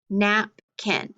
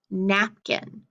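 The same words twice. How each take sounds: First: "Napkin" broken into two beats, nap and kin; split into syllables. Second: Said in the usual way. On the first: Shown as a demonstration. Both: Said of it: "how many syllables do you think".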